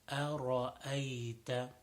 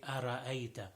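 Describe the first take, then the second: First: The r sound is full-mouthed and heavy. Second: The r sound is thin, not full-mouthed. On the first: The speaker calls it right. "make sure the ra is full mouth" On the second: The speaker calls it wrong. "people do not make the ra full mouth and they say"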